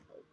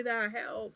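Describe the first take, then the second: First: Silently mouthing the word Help through glass; mouthing help behind the glass; mouthed, barely voiced. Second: Said in the usual way. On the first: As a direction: shape "Help" with almost no sound. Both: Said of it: "Like, he was mouthing it".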